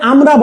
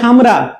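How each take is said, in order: First: The word begins directly with a vowel. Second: The word begins with an h sound. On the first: "same ভাবে আমরা বলে না" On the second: "বলে হামরা"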